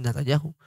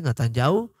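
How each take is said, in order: First: NATANYAHU ending "-YA-ju" with a soft J; soft J sound. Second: NATANYAHU ending in "-YAU" without H; silent H. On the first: Teacher giving the way some others say it, soft J. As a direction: break the last vowels of "Natanyahu" with a gentle J. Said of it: "algunos dicen Natanyahu". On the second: Teacher giving the first way it is said, silent H. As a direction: join the final A and U of "Natanyahu". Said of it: "se dice Natanyahu y algunos dicen". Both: Shown as a demonstration.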